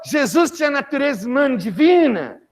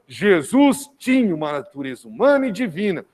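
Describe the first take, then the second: First: It is said as a rising question. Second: It is said as a firm falling statement.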